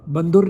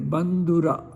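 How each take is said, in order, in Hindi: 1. शब्द अंतिम 'a' स्वर के बिना खत्म होता है। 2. शब्द दीर्घ अंतिम 'a' स्वर से खत्म होता है। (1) "बंधुर नहीं पढ़ेंगे"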